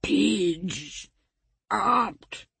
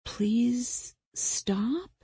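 First: "Pidge opt", mangled and broken in two; tongueless garbled speech. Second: "Please stop" drawn out, higher, rising; questioning. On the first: A narrator's reading. Tongueless victim pleads through tears, "Pidge opt" garbled. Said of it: "that was the best he could do to form the words". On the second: Acted. Killer translates her victim's plea, "Please stop" questioning. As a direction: say "Please stop" clearly as a slow, guessing question.

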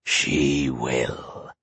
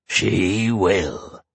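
First: Low, quiet gloating monster; deep monster voice. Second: A lightly voiced gleeful monster. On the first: Acted. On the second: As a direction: monster gloating, only a little darker. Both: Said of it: "The monster cackled with glee".

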